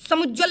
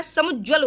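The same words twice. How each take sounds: First: समुज्ज्वल run together as samujwal; undivided समुज्ज्वल; wrong form shown. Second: समुज्ज्वल with a held jj, samuj-jwal; double j shown. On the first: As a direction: say समुज्ज्वल with a light j. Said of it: "समुज्ज्वल नहीं होता है". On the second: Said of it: "double जा इसमें लगता है". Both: Shown as a demonstration.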